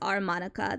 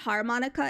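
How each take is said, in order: First: The word starts without an H sound. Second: The word starts with an H sound. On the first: The speaker calls it right. "There's no H in it" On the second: The speaker calls it wrong. "It's not harmonica"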